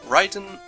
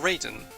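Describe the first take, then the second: First: The first syllable rhymes with 'eye'. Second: The first syllable rhymes with 'day'. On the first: "the A I spelling makes an I sound" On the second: "the A I spelling makes the A sound"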